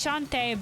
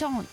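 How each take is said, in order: First: The word ends with an 'ay' vowel sound. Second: The word ends without a final vowel sound. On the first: The speaker calls it wrong. "because I'm thinking of it like enchanté" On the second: The speaker calls it right. "as in uh, the French for sing"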